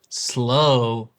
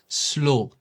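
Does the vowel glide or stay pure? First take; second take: glide; pure. First: The vowel glides between two sounds. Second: The vowel stays a single pure sound.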